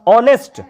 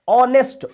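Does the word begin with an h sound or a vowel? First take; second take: vowel; vowel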